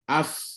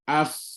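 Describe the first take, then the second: The two takes are said the same way.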